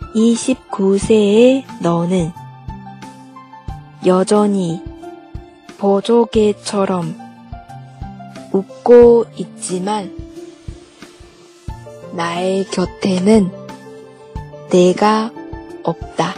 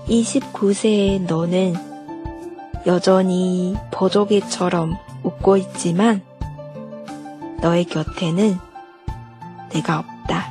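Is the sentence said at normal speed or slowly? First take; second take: slowly; normal. First: It is said slowly. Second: It is said at normal speed.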